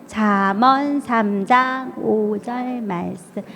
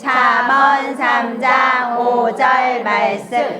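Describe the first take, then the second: First: It is said in a very small voice. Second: It is said in a normal voice.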